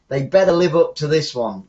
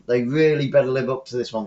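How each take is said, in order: First: Better leaned on, a bit louder; stress on better. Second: Really better pushed, the level held down; stress on really better. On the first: Commentator warning tonight's later games, stress on better. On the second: Commentator repeating the warning to later games, stress on really better. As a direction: press really better, more insistent. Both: Real, not acted.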